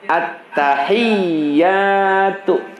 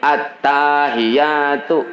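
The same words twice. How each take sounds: First: The 'ta' is short and doubled with force. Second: The 'ta' vowel is drawn out long. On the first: The speaker calls it right. "Huruf ta dan ianya harus keras tasdidnya" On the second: The speaker calls it wrong. "Jangan dibaca gini"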